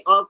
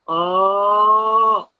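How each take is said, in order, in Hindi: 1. स्वर छोटा और सामान्य बोला गया है। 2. स्वर को खींचकर लंबा बोला गया है। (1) "जैसे अ कहा" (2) "उसी अ को ही हमने खींचा, लंबा किया"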